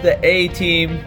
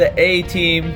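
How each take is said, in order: First: The letter is said like 'ay'. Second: The letter is said like 'ay'.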